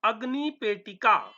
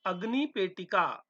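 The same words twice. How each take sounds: First: अग्निपेटिका said clearly and a bit louder, ag-ni-pe-ti-ka; model pronunciation. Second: Said in the usual way. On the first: Shown as a demonstration. Teacher presenting अग्निपेटिका to students, clear and firm. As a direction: announce अग्निपेटिका for the class to repeat. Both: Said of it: "उच्चारण करते रहना".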